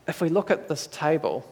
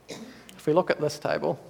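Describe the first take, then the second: No difference in how they are said.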